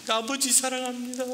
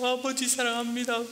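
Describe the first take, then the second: Both takes have the same delivery.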